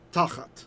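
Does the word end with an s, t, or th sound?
t. The word ends with a plain t sound.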